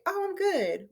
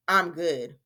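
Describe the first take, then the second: First: High, lilting, upbeat "I'm good". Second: Low, dull "I'm good"; downbeat good. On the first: Teacher showing how tone of voice reveals feeling, upbeat. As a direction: say it brightly, pitched well up. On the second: Teacher contrasting tones of voice for the same answer, downbeat. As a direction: say it like you don't mean it, pitched down. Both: Shown as a demonstration. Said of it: "They can tell by the tone of your voice".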